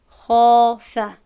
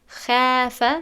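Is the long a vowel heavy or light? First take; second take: heavy; light. First: The long a is full and heavy. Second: The long a is thin and light. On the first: The speaker calls it right. "پس ما الف رو هم یعنی پر تلفظ میکنیم" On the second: The speaker calls it wrong. "نمیگوییم"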